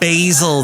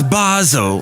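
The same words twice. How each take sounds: First: The word is said in an American accent. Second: The word is said in a British accent. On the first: The speaker calls it wrong. "if you say uh, basil there" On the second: The speaker calls it right. "that's how they sound in England"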